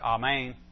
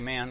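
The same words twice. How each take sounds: First: It is said the way Hebrew speakers say it. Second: It is said the Southern American way. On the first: "although I think they pronounce it "Amen."" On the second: "We say amen, at least in the South"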